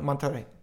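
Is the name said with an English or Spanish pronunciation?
Spanish. The name is said with a Spanish pronunciation. The speaker calls it right. "And now I try and go"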